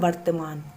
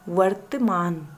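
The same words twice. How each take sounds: First: The word begins with a b sound. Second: The word begins with a v sound. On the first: The speaker calls it wrong. "हम अक्सर ऐसे ही उच्चारण करते हैं वर्तमान, ... वो की जगह ब का यूज़ करते हैं।" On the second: The speaker calls it right. "लेकिन सही वर्तनी क्या है?"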